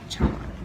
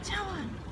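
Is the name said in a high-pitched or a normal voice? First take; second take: normal; high-pitched. First: The name is said in a normal voice. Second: The name is said in a high-pitched voice. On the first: "Not like Chawan" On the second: "like Tinkerbell voice"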